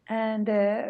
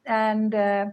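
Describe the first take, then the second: No difference in how they are said.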